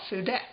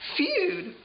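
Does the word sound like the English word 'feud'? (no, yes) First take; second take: no; yes. First: It does not sound like English feud. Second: It sounds like the English word feud. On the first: The speaker calls it right. "it's pronounced fude" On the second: The speaker calls it wrong. "You know, feud, like a fight. And I said, no. It's feud"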